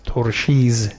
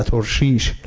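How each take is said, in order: First: ترشیز said torshiz, ending in z; old pronunciation. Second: ترشیش said torshish, ending in sh; old pronunciation. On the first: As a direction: say ترشیز with a final z sound. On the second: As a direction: say ترشیش with a final sh sound. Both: Shown as a demonstration.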